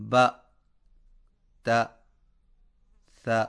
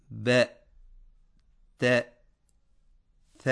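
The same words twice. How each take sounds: First: با، تا، ثا read with a short, clear open "a" sound; correct fatha. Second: ب، ت، ث clipped short, the vowel swallowed; mistaken, vowel-less ب ت ث as a warning; wrong, clipped fatha. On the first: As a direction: say با، تا، ثا with a crisp fatha. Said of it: "مثلاً". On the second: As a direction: cut the fatha off in ب، ت، ث. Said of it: "یوں پڑھنا، درست نہیں". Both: Shown as a demonstration.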